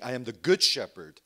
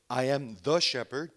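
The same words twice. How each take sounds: First: "good" hit hard and louder, falling close; stress on GOOD. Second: "the" leaned on, "shepherd" left rising; stress on THE. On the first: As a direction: punch the word "good" as the key difference. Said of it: "but he's saying". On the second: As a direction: stress "the" and leave "shepherd" hanging for a contrast. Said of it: "not just saying". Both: Shown as a demonstration.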